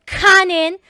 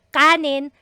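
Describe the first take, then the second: First: The k is released with a puff of air. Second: The k is tense with no puff of air. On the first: It sounds like a foreigner trying to speak Tagalog. The speaker calls it wrong. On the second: It is the native Filipino sound. The speaker calls it right. "double K, doon sa Tagalog words"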